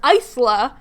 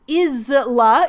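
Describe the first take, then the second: First: Isla as EYE-sla, with a long opening I; less snake hiss. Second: Isla as IZ-uh-la, with a buzzed s; every letter pronounced. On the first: Host comparing name pronunciations, Isla said as EYE-sla. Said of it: "doesn't have that as much". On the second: Host defending her reading of a name, Isla said as IZ-la. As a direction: sound out all the letters in Isla: IZ-la. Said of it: "how you pronounce all of the letters while getting a snake hiss". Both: Shown as a demonstration.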